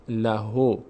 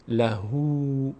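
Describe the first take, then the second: First: "لهو" said "la-ho", no long "oo"; unlengthened ending. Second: Slow "لهو" with a long held "oo"; lengthened damma. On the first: Teacher shows it as if the vav were absent, "o" ending. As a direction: end "لهو" on a plain "o" sound. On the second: Teacher shows the damma drawn longer, long "oo". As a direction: stretch the end of "لهو" into "la-hoo". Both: Shown as a demonstration.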